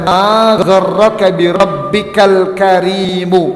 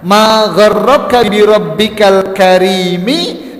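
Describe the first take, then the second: First: The last word ends with a 'u' vowel. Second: The last word ends with an 'i' vowel. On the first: Why did your own nobility lead you to disobey your Lord? "ada juga yang membaca" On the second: What deceived you about your Lord, the Most Generous? "Ini ada dua cara membacanya"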